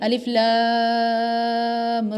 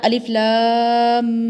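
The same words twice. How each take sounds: First: The final m of lam is cut short. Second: The final m of lam is held nasal. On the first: The speaker calls it right. "यहाँ पे पढ़ेंगे अलिफ लाम रा जल्दी से" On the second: The speaker calls it wrong. "वहाँ गुन्ना करेंगे तभी हमने पढ़ा अलिफ लाम इस तरीके से यहाँ पे ऐसे नहीं"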